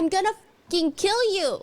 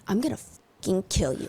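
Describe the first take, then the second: First: The threat sounds casual, not sinister. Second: The threat sounds dark and sinister. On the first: The threat is a frustrated everyday reaction. The speaker calls it right. "That's the tone that she uses" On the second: The threat is meant to sound menacing. The speaker calls it wrong. "It was not like this dark, sinister"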